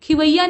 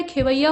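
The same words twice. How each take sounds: First: खिवैया starting "khi"; wrong form. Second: खेवैया starting "khe"; correct form. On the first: Teacher showing the mistake, खिवैया starting "khi". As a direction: say खिवैया with short i first. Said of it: "नहीं होता है". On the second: Teacher correcting it, खेवैया starting "khe". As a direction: say खेवैया with e first. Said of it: "खेवैया होता है". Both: Shown as a demonstration.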